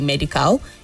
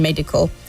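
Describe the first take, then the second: First: The last syllable has a full vowel. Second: The last syllable has a weak vowel. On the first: The speaker calls it wrong. "you don't say medical" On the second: The speaker calls it right. "the last syllables both have a weak sound"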